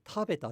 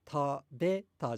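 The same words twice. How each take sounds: First: 食べた high on た at the start, then dropping; accent the first mora of 食べた, falling after it; head-high 食べた; correct pitch accent. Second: 食べた with the pitch raised on べ; mispitched 食べた, peak off the first mora; wrong pitch accent. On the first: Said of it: "食べたじゃなくて食べたじゃないですか". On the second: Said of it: "食べたじゃなくて食べた". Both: Shown as a demonstration.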